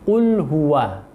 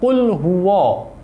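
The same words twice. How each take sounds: First: The w sound is clear and light. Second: The w sound is thickened and heavy. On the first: The speaker calls it right. "Wawunya tetap dibaca sesuai dengan makhraj dan sifatnya" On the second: The speaker calls it wrong. "terkontaminasi dengan e, sifat tebalnya Allah"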